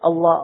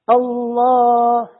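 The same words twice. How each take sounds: First: The word is said in a harsh, rough tone. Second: The word is said in a soft, gentle tone. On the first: The speaker calls it wrong. "don't say" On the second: The speaker calls it right.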